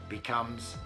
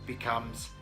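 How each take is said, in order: No difference in how they are said.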